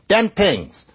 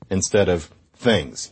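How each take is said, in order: First: "Dem tings" with a hard d and t, Brooklyn style; Brooklyn accent. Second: Said in the usual way. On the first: Retold or imitated. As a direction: say "Dem tings" like Ralph Cramden, higher and louder. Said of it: "Ralph Cramden on The Honeymooners might say".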